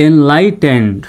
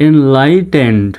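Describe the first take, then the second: Both takes have the same delivery.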